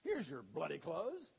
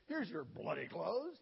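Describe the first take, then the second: First: Mock English accent, slow, with "bloody" stressed. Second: Put-on English accent. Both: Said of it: "He was English".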